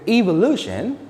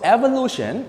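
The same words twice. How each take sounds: First: It is said with a British pronunciation. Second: It is said with an American pronunciation. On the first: "that's for British English" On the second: "evolution is for American English"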